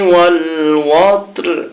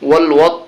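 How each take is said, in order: First: The word ends with the final r sound. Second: The word ends without the final r sound. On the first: The speaker calls it right. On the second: The speaker calls it wrong.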